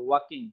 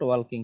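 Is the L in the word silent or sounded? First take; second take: silent; sounded. First: The L sound is silent. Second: The L sound is pronounced. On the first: The speaker calls it right. "এল এর উচ্চারণ হবে না" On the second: The speaker calls it wrong. "Not ওয়ালকিং"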